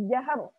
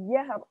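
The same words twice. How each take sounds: The two takes are said the same way.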